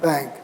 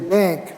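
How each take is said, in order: First: The a vowel is low and lax. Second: The a vowel is raised and tense. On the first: The speaker calls it wrong. "not bank" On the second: The speaker calls it right. "You raise before velar nasals and say bank"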